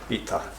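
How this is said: The t is followed by a strong breath of aspiration. This marks the speaker as from the north. "In the north they say"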